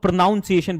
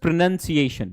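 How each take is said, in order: First: प्रोनाउंसिएशन mispronounced as pro-NOUN-ciation; common mispronunciation. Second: Pronunciation said carefully with "nun" in the second syllable; slow, careful model of pronunciation as pro-NUN-ciation; correct pronunciation. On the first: Teacher showing students how some people say it, प्रोनाउंसिएशन mispronounced with "noun". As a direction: say प्रोनाउंसिएशन with a "noun" sound in the second syllable. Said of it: "इसको कुछ लोग प्रोनाउंसिएशन बोलते होंगे".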